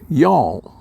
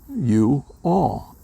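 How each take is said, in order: First: It is merged into a single word. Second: It is said as two separate words. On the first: This is how southern speakers say it. "made it into a, a one word" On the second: This is how northern speakers say it. "to me it's two words"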